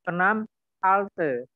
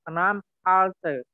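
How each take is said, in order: No difference in how they are said.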